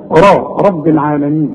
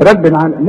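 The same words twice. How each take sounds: First: رب with a thick dark "raa"; heavy ra. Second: رب العالمين opening on a thin "reb"; wrong light ra. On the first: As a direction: model رب العالمين, r full and heavy. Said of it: "الراء طبعًا أنت خدتها مفخمة". (رب العالمين براء مفخمة) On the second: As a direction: show رب wrongly thinned. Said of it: "لا". (رب العالمين براء مرققة غلط) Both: Shown as a demonstration.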